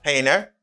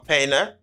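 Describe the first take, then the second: First: It is said with an American accent. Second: The same.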